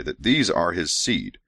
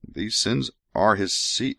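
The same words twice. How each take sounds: First: Said in the usual way. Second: "these sins are his seed" read with the misread word "sins"; slow misread line with "sins". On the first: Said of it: "Oh, sorry". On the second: Real, not acted. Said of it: "Oh, sorry, that these are his seed".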